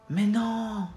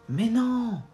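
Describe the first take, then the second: Both takes have the same delivery.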